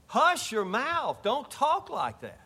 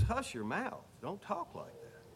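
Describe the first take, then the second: First: High, slow scolding, leaning on HUSH and TALK; stern rebuke. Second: Soft rebuke. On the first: Preacher scolding the sinful question, high slow rebuke. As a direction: hush them like a stern elder. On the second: Preacher repeating the rebuke to the congregation, hushed and soft. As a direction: say it under your breath, almost private. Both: Acted. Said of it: "That's what he's saying".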